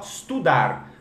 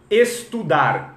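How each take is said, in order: First: "estudar" cut to "studar"; estudar without E. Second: "Estudar" slow, with the E sounded; full opening E. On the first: Teacher drilling "estudar" with its E removed. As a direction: begin "estudar" straight on the S. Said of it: "fala só estudar". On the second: Teacher giving the starting word, slow "Estudar" with E. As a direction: draw out "Estudar" from a clear E. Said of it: "tira o E do estudar". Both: Shown as a demonstration.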